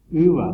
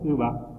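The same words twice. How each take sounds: First: "Uva" with the first syllable stressed. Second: "uva" with the final a stressed; stress on last syllable. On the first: Teacher contrasting word meanings, first-syllable stress. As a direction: hit the U of "Uva". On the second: Teacher giving the word for fruit, final stress. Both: Shown as a demonstration. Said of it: "cambia el significado de".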